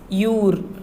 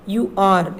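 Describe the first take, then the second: First: It is said as one contracted syllable. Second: It is said as two separate full words. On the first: "read in a short form only. So it is you're" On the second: "You are is the full form"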